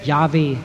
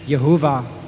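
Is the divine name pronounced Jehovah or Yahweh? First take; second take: Yahweh; Jehovah. First: The name is pronounced as Yahweh. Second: The name is pronounced as Jehovah. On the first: The speaker calls it right. "ich heiße Yahweh" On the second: The speaker calls it wrong. "Das hat man früher anders ausgesprochen, falsch"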